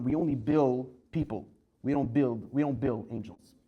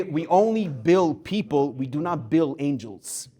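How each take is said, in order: First: Said in the usual way. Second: Slow, weighty repeat of the punchline; slow down and let "only bill people" land; savoring the line. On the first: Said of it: "Unbelievable story". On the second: Shown as a demonstration. Rabbi repeats the line to his class, slow and weighty. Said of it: "An unbelievable line".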